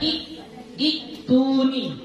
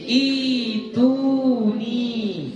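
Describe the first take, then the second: First: A glottal stop follows the short opening i. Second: The opening i is long with no glottal stop. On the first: The speaker calls it wrong. "nggak boleh lagi kita baca i itu ni" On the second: The speaker calls it right. "Bacaan yang benar adalah apa? Itu ni"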